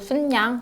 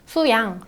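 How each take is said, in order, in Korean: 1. 'su' 뒤에 ㄴ 소리가 붙어요. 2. 'su' 뒤에 ㄴ 소리가 붙지 않아요.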